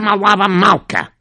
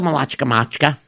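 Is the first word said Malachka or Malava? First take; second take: Malava; Malachka. First: The first word has a soft 'v' sound. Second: The first word has a harsh 'ch' sound. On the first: The speaker calls it right. "you said it right" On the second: The speaker calls it wrong. "It doesn't say Malachka Malka"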